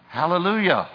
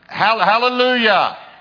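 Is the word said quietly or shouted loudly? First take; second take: quietly; shouted. First: The word is said softly, without shouting. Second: The word is shouted out loudly. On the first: The praise is held back. The speaker calls it wrong. "that's not shouting" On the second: The praise is given freely. The speaker calls it right. "So finally I started"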